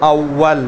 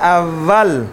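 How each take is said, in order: First: The w is made with rounded lips. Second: The w is made with teeth on the lip. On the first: The speaker calls it right. "ہاں عربی میں اول / گول کرنا ہے" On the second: The speaker calls it wrong. "اردو میں اول / اردو والے کہتے ہیں واو کو فا کی طرح"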